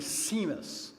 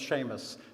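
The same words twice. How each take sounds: First: The name is said with a French pronunciation. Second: The name is said with an Irish pronunciation. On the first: "in France, where I live, they often call me Seamus" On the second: "we are known as Seamus"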